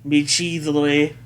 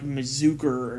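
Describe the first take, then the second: First: The word is said with a 'chi' sound. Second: The word is said without a 'chi' sound. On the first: The speaker calls it right. "calling you out on your pronunciation of Michizure" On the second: The speaker calls it wrong. "how fucking, like, um, M B T was pronouncing it"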